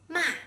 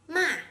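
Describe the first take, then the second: The two takes are said the same way.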